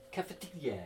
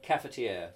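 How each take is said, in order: First: Cafetiere said softly, higher, in French style; soft mock-French cafetiere; French accent. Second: Said in the usual way. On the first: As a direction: try "cafetiere" as a French word. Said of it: "doing it in a French accent".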